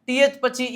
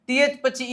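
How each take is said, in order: Both takes have the same delivery.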